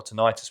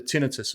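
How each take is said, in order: First: "tinnitus" said ti-NIGHT-us; alternative pronunciation. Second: "tinnitus" said TIN-i-tus; first pronunciation variant. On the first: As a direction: stress the middle of "tinnitus", rhyming it with night. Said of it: "whichever, depending on where you're from". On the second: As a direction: stress the first syllable of "tinnitus", short i's. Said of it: "probably murder the pronunciation of that". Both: Shown as a demonstration.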